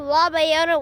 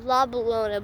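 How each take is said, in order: First: The middle consonant is a Y sound. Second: The middle consonant is an L sound. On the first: This is how the locals say the name. "they pronounce it Bayona" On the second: This is the speaker's own preferred way. "I still say La Bellona because it just sounds better"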